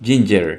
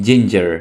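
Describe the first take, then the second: No difference in how they are said.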